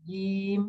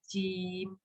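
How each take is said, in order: First: The j is made at the tongue's middle. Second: The j is made at the tongue's front. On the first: The speaker calls it right. "Tapi kalau tengah kan jim gitu, beda ya" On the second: The speaker calls it wrong. "menempatkan jim di lidah bagian depan, bunyinya pasti jim"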